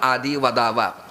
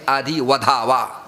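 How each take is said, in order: First: The last word has a plain unaspirated d sound. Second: The last word has an aspirated dh sound. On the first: One should speak the name. The speaker calls it right. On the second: One should kill. The speaker calls it wrong.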